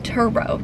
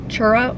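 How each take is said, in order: First: The word begins with a t sound. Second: The word begins with a ch sound. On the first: The speaker calls it right. "Turo, T U R O" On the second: The speaker calls it wrong. "it's not Churro"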